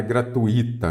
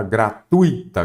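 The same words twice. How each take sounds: First: "gratuita" said gra-tu-Í-ta, stress on the i; "gratuita" with a stressed, separate i; wrong hiatus pronunciation. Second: "gratuita" said gra-TUI-ta, stress on the u; drawn-out TUI as one syllable in "gratuita"; "gratuita" with ui glided together, stressed on u; corrected diphthong pronunciation. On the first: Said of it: "Nada disso". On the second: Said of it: "O correto é a entrada gratuita". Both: Shown as a demonstration.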